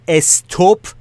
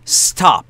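First: An extra vowel sound comes before the s. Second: The word begins directly with the s sound. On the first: The speaker calls it wrong. "ا نداره اولش ... استوپ و استاپ اشتباه" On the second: The speaker calls it right. "قربونتون برم. stop stop stop"

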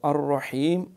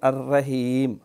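First: The r sound is heavy and thick. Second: The r sound is thin and light. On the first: The speaker calls it right. "ये रा के ऊपर ज़बर है" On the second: The speaker calls it wrong. "तो ये नहीं"

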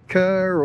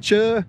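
First: The name begins with a k sound. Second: The name begins with a ch sound. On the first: This is how the locals say it. "I think they call it Kerr or something incorrect here" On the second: This is the New Zealand way of saying it. "It's how you pronounce it in New Zealand"

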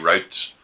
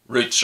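First: The word is said in an American pronunciation. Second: The word is said in a non-American pronunciation.

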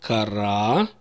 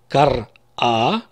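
First: The word flows without a break before the final vowel. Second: A short break comes before the final vowel. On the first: He read. "Кара он читал" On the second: She read. "Как будто бы твердый знак я поставил перед буквой А"

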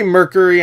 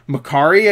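First: It is said like the word Mercury. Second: It is said as Macari, ending in -ari. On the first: This is the speaker's habitual way of saying it. "I'd say Mercury. I know it's not spelled that way, but I always call it that" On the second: This is a guess at the proper way of saying it. "Macari, I guess?"

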